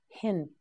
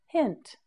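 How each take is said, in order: First: Said in the usual way. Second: "hint" said on a much higher note; raised pitch on hint. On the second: Shown as a demonstration. Teacher modelling "hint" for learners, raised pitch. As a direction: lift "hint" clearly higher than the first take. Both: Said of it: "Now you say it".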